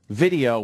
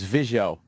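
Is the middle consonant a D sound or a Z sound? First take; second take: D sound; Z sound. First: The middle consonant is a clear d sound. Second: The middle consonant is a z-like sound. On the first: The speaker calls it right. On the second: The speaker calls it wrong.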